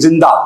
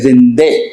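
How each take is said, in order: First: The word ends in an open 'a' vowel. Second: The word ends in an 'e' vowel. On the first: "एक लफ्ज है जिंदा" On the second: "ईरानी कहेगा जिंदे"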